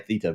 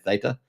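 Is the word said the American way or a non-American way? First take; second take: non-American; American. First: It is said in a non-American pronunciation. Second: It is said in an American pronunciation. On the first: "I say Theta" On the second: "Americans do say Theta"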